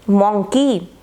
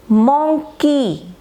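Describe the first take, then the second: First: Said in the usual way. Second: monkey stretched into two beats, मं then की; syllable by syllable. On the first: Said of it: "मोंग और दूसरा की". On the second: Shown as a demonstration. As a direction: break monkey slowly after the first syllable. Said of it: "इसी तरह से". (Monkey को मं और की में तोड़कर, धीरे)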